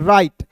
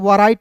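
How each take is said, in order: First: The word begins directly with the 'r' sound. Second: The word begins with a 'w' sound before 'r'. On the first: The speaker calls it right. "W इसमें silent होता है" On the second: The speaker calls it wrong. "इसे वराइट नहीं पढ़ेंगे"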